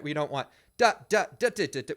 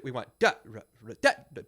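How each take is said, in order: First: Every da hit equally loud; sung rhythm hammering the drags too hard; wrong, accented drags. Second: Da ra ra with the ra light and tucked in; sung rhythm with light grace-note drags; unaccented drags. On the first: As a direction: punch each da in the phrase as if accented. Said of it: "make sure that the drags are not accented". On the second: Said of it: "don't accent the and of one and beat two". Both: Shown as a demonstration.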